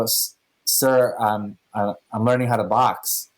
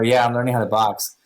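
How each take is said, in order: First: A hint of a timid, hesitant mumble; mildly sheepish lie to the boss. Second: Said in the usual way. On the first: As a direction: lightly play it nervous and caught out. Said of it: "So very sheepishly". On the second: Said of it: "I go".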